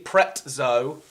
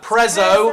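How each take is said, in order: First: The middle consonant is a ts sound. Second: The middle consonant is a plain z sound. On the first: "is with a T" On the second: "is no tea"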